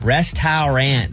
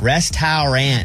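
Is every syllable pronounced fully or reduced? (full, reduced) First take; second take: full; full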